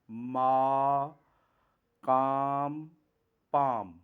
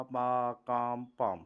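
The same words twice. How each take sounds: First: "ما، کام، پام" each said clearly with a long aa; careful teacher demo; example words demo. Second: Said in the usual way. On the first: Shown as a demonstration. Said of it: "اب اس کی examples دیکھیں". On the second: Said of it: "آپ نے بولنا بھی ہے کہ پا".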